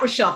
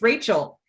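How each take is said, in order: First: The name is said as Rochelle. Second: The name is said as Rachel. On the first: The speaker calls it wrong. "it's not Rochelle" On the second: The speaker calls it right. "It's Rachel"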